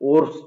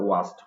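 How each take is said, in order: First: The word is said with an r sound. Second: The word is said without an r sound. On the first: The speaker calls it wrong. "ওরস্ট আমরা অনেকে বলি, আসলে এটা right না" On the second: The speaker calls it right. "উচ্চারণটা হবে ওয়াস্ট"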